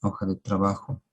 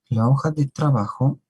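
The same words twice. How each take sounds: First: Said in the usual way. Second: "La hoja de trabajo" said higher and louder, "hoja" lifted; teacher raising the voice to stress "La hoja de trabajo"; emphatic title. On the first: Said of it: "reads out the sheet title". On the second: Real, not acted. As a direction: announce "La hoja de trabajo" like a heading, up and loud. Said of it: "repeats the title with emphasis".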